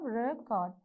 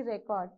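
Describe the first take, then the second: First: "record" split into two separate syllables. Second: Said in the usual way. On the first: Shown as a demonstration. Teacher counting syllables of the verb, "record" broken in two. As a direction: sound out "record" as two distinct beats. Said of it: "So how many syllables you have?". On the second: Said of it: "whether it is a noun or a verb".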